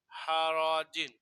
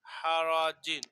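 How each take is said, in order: First: হারাজিন stretched slowly with a falling end; slow model reading. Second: Said in the usual way. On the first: Shown as a demonstration. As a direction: draw out হারাজিন for pupils. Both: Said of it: "জিম দুই জের জিন".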